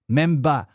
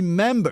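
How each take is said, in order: First: The final r is dropped, ending in 'ah'. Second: The final r is clearly pronounced. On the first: "quand elle est à Détroit, elle dit Memba" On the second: "quand elle est à Pittsburgh deux heures plus tard, elle dit member"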